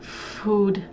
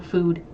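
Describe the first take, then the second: First: The word is said with heavy, exaggerated emphasis. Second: The word is said plainly, without extra emphasis. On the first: "trying to stress the word food" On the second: "instead of just like, you know"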